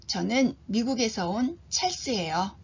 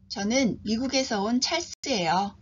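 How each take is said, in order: The two takes are said the same way.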